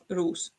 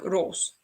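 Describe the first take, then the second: First: The name is said with an English-like vowel. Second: The name is said with a Dutch vowel. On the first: The speaker calls it wrong. "instead of roos" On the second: The speaker calls it right. "So it should be in in Dutch. It would be close, like it would be like roos"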